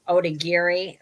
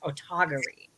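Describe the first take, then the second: First: The second consonant is a 'd' sound. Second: The second consonant is a 't' sound. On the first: The speaker calls it wrong. "most people for a long time we've been pronouncing it Odagiri" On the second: The speaker calls it right. "she says it's actually pronounced Otagiri"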